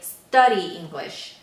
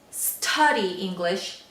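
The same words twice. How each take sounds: First: The t in study is soft, without a puff. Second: The t in study has a puff of air. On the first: The speaker calls it right. "we say study English" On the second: The speaker calls it wrong. "instead of saying study English"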